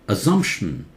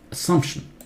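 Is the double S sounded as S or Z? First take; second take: Z; S. First: The double S is sounded as Z. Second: The double S is sounded as S. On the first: The speaker calls it wrong. "Assumption is wrong. ... Double S does not take Z" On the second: The speaker calls it right. "Double S, S sound"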